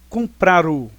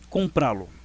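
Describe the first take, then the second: First: The verb keeps its final R before 'o'. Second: The verb ends in a stressed vowel before 'lo'. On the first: The speaker calls it wrong. "nós falaríamos assim, ó, comprar o, horrível" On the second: The speaker calls it right. "observem, comprá-lo"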